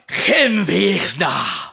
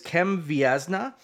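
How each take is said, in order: First: The name is said in a bold, guttural voice. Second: The name is said plainly, in a normal voice. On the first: "Very barbaric Viking style version of Cambodian" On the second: "I'm going to completely butcher it"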